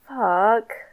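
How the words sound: It sounds sad.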